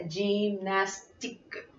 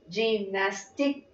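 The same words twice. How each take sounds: First: "gymnastique" ending on a crisp k, no vowel after; slow, softer "gymnastique" stopping at the k sound; silent final E. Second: "gymnastique" as spelt, ending in an audible "kuh"; final E sounded. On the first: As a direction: drop the last E of "gymnastique". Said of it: "no se pronuncia la E final". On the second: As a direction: voice the last E of "gymnastique". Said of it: "en francés se escribe gymnastique". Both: Shown as a demonstration.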